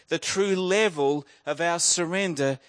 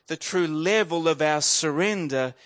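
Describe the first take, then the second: No difference in how they are said.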